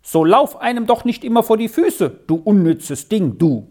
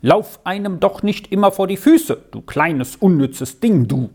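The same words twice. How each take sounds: First: Higher-pitched scolding call, narrated. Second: Mildly annoyed father's scolding. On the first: Brothers calling at their little sister as she comes near, scolding. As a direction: call it out like irritated brothers, mildly. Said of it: "So riefen sie dann immer schon". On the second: Father snapping at his small daughter underfoot, annoyed. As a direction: scold with a touch of irritation. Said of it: "dass der Vater ärgerlich sagte". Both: A narrator's reading.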